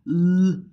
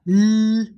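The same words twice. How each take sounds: First: The L sounds hollow and dark. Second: The L sounds light and bright. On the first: "at the end of a syllable, as in well ... we call it dark L" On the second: "at the beginning of a syllable, as in let ... we call it clear L"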